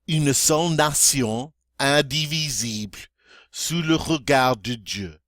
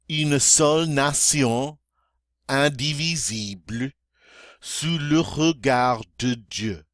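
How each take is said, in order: First: It is spoken at near-normal speed. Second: It is spoken at a moderate pace. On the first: "more toward um, normal speed" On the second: "a little faster now"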